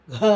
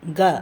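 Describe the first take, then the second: First: Breathy gha with a heavy puff on க; க as an effortful "gha"; aspirated voiced க. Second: க voiced, no puff; unaspirated க. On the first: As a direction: push air through a voiced க. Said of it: "அதிகமாக காற்றை எடுத்து". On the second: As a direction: say க as an easy "ga". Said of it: "குறைந்த காற்று". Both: Shown as a demonstration.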